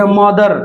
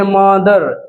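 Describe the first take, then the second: First: Said in the usual way. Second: "मदर" stretched on the first syllable म; teacher's lengthened "मदर", first syllable held; drawn-out demonstration. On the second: Shown as a demonstration. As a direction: draw out "मदर" as मअ-दर to show the म. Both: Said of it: "म का pronunciation आ रहा है".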